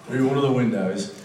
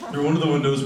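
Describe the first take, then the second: First: It is read in an Australian accent. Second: It is read in the speaker's normal accent.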